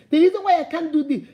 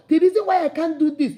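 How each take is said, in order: Both takes have the same delivery.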